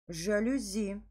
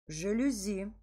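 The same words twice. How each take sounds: Both takes have the same delivery.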